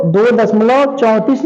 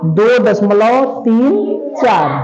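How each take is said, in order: First: Said in the usual way. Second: दो दशमलव तीन चार with तीन and चार said slowly as separate digits; slow, careful digit-by-digit reading. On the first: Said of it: "नहीं पढ़ेंगे". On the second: Shown as a demonstration. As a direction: read तीन चार as two digits, not चौंतीस. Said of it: "क्या पढ़ेंगे?".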